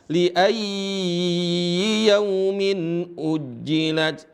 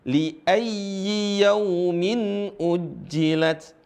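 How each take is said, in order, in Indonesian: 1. Vokal pada ya yang ganda dibaca panjang. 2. Vokal pada ya yang ganda dibaca pendek. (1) "Banyak yang baca" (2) "Yang benar adalah"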